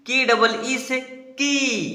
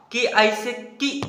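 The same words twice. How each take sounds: First: की drawn out with a long ee, slow; long kii. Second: की said short and quick at the end. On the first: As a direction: stretch the ee in की long. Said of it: "इसका बारह उच्चारण, बड़ा उच्चारण होगा". (बड़ी ई वाला की, लंबा खींचकर) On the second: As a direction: clip the vowel of की short. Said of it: "इसका छोटा प्रोनाउंसिएशन". (छोटी ई वाला की, छोटा उच्चारण) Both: Shown as a demonstration.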